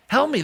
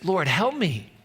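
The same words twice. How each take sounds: First: Higher and louder cry of help; desperate plea. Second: Said in the usual way. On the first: Retold or imitated. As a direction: break into a pleading cry. Desperate woman begging Jesus.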